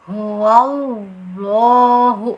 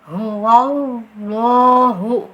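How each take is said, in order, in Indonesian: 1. Bunyi w diselipkan sebelum 'lah'. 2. Bunyi w diselipkan sebelum 'lah'.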